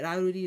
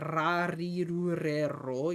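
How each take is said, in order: First: The r sounds come out soft, like an l. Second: The r sounds are strongly rolled. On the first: The speaker calls it right. "It comes out weirdly enough like an L" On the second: The speaker calls it wrong. "you're not really supposed to roll it like"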